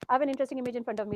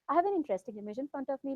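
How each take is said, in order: First: It is said quickly, in a flat, even tone. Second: It is said slowly, with a relaxed rising-falling tune. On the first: "But when I say it fast, ... it's a flat, boring tone" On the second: "I'll say the same thing in a relaxed way"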